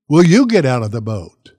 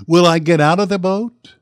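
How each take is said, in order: First: Pointed question thrown at "you"; challenge to listeners. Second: "Will I get out of the boat" with a rising end; questioning himself. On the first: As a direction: stress on "you", louder, with a falling end. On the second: Contrasts himself with his listeners. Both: Real, not acted.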